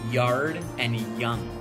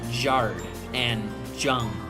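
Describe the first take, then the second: First: The words begin with a Y sound. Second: The words begin with a J sound. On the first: The speaker calls it right. "you would say yard and young" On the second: The speaker calls it wrong. "pronounced with a J sound instead of a Y sound"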